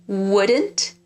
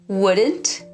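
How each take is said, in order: Both takes have the same delivery.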